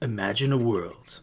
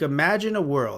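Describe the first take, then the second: First: It is said in a deep, dramatic announcer voice. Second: It is said in an ordinary conversational voice.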